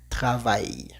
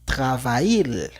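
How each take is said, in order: First: The word ends with a Y sound. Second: The word ends with a clear L sound. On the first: The speaker calls it right. "sería una Y. Por esta razón, esta palabra se pronunciaría travail" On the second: The speaker calls it wrong. "no vamos a decir travail. No"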